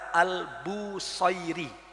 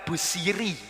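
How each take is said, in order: First: It is said the Arabic way, with 'sai'. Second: It is said the Javanese way, with plain 'si'.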